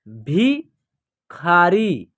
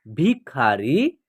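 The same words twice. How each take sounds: First: भिखारी drawn out, syllables apart; slow syllable by syllable. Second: Said in the usual way. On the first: Shown as a demonstration. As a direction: read भिखारी slowly in parts. (भिखारी धीरे-धीरे टुकड़ों में) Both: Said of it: "या आप direct भी पढ़ सकते हैं".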